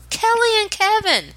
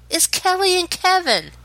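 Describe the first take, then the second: First: Even higher, mock-dramatic repeat; dramatic echo. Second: High, announcer-style reveal; dramatic reveal. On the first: Dramatic results announcement. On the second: Acted. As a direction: reveal the names like a TV host.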